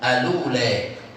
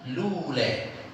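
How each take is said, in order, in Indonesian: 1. Kata ini dimulai dengan vokal pendek sebelum L. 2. Kata ini langsung dimulai dengan bunyi L. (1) "Cara pertama dia baca apa?" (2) "Cara kedua"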